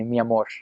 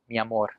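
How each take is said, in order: First: The final r sounds like sh, rural Costa Rican style. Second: The final r is a plain r sound.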